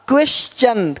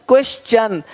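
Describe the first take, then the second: Both takes have the same delivery.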